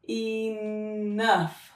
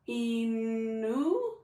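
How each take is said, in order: First: The 'ough' is said as uff. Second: The 'ough' is said as oo. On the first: "You want to try uff?" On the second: "What about oo?"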